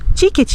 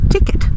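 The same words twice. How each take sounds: First: The word has a Brazilian Portuguese pronunciation. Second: The word has an English-style pronunciation. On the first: The speaker calls it right. "Nós diremos ticket" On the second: The speaker calls it wrong. "em vez de dizer ticket"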